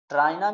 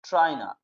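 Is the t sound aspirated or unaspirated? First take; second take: unaspirated; aspirated. First: The t is plain, without a puff of air. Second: The t is aspirated, with a puff of air. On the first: It is acceptable in India. "ट्राइना भी बोल सकते हो" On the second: It sounds more natural to native speakers. "आप ठ ठ का भी sound ला सकते हो"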